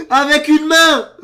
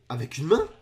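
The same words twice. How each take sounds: First: High, very loud, slow yell; shocked yell. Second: Lower, rising, restrained disbelief; baffled question. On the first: Reacting to one-handed solve, shocked yell. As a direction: bellow it out in disbelief. Repeats it as a shout. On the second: Reacting to one-handed solve, baffled question. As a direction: ask it as if unsure you saw right. First, quieter disbelief before yelling. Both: Real, not acted.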